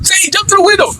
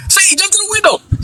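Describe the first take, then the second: First: High shouted repeat of the call; retold shout. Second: High urgent call. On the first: Teens calling their friend through the car window, shouting. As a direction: yell it again, higher and harder. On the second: Retold or imitated. Teens in the car calling to their friend, high urgent call. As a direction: urge him in, high and eager. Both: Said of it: "we'd be like".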